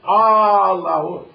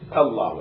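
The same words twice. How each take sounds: First: The first vowel is drawn out long. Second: The first vowel is short. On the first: It sounds like asking whether there is God. The speaker calls it wrong. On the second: It is the normal call that God is greatest. The speaker calls it right. "pronunciation is it?"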